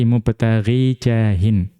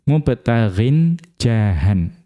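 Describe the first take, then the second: First: The first word ends without an n sound. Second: The first word ends with an n sound. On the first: The following word is joined to it as a possessor. "Itu cara membaca yang kedua" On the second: The following word is its direct object. "kalau cara membaca yang pertama"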